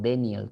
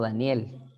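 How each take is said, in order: First: The name is pronounced with English sounds. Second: The name is pronounced with Spanish sounds. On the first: "en Estados Unidos es Dennis, ¿no? O Daniel, creo que se pronuncia" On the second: "yo me llamo Daniel"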